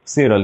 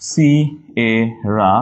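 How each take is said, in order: First: Said in the usual way. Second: Very slow "Sierra" as si, e, ra; syllable by syllable. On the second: Shown as a demonstration. Teacher showing spelling, "Sierra" slowly split. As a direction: leave gaps inside "Sierra". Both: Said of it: "একটু ভেঙে মনে থাকবে".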